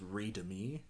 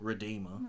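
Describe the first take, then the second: First: The word is misread, sounding like 'read me er'. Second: The word is said as 'redeemer'. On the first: The speaker calls it wrong. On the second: The speaker calls it right.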